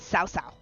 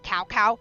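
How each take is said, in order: First: Each syllable starts with an S-like sound. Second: Each syllable starts with a K sound. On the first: The speaker calls it right. "it's Sao Sao" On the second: The speaker calls it wrong. "It's not Cow Cow"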